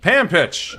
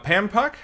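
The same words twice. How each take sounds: First: Pampich repeated with an ITCH ending; corrected name pronunciation. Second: Pampuck said with an UCK ending; tentative name pronunciation. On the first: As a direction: say "Pampich" to end like pitch. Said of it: "Uh, Pampich". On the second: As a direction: say "Pampuck" to end like puck. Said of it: "is that how you say it?". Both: Real, not acted.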